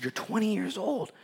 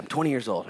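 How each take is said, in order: First: Higher, softer mock disbelief; acted-out incredulous repeat, pitched up; incredulous echo. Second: Said in the usual way. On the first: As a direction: repeat it back as if astonished. Repeats the age back in disbelief.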